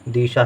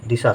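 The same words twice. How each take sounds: First: The first vowel is held long. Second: The first vowel is kept short. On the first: The speaker calls it wrong. "यदि हम गलती से दा में बड़ी की मात्रा लिख दें तो हो जाएगा दिशा। दिशा सही नहीं है" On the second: The speaker calls it right. "दिशा सही है"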